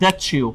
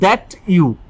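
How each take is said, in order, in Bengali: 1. t আর y মিশে ch এর মতো শোনায়। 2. t টা আলাদা, সাধারণ t উচ্চারণই থাকে। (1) "চয়ের মতো করে বলতে মানে" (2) "আগে আমরা বলতাম"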